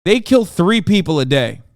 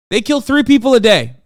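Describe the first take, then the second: First: Said in the usual way. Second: Loud, high, furious repeat; real outrage, much louder and higher; angry shout. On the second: Real, not acted. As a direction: yell the stat at them. Repeating the stat, now shouting.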